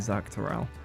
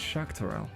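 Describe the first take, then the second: First: The name begins with a 'z' sound. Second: The name begins with an 'sh' sound. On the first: The speaker calls it wrong. "originally going, ah, that must be Zaktaral" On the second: The speaker calls it right. "actually, it's Shaktaral"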